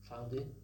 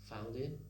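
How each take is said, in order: The two takes are said the same way.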